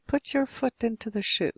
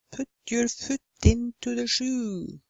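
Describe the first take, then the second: First: "Put" and "foot" with short, lax English vowel; relaxed lips. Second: "Put" and "foot" with tight, rounded Norwegian oo; over-rounded lips. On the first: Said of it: "You simply relax your". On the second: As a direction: purse the lips hard on "Put", "foot", "shoe". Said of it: "very good at rounding our lips". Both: Shown as a demonstration.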